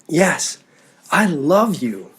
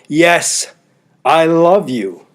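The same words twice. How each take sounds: First: It sounds warm and sincere. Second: It sounds grudging and reluctant. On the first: The relationship is in good shape. "The first means that you're in good shape with your relational partner" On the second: The relationship may be in trouble. "the second might mean you're in some trouble"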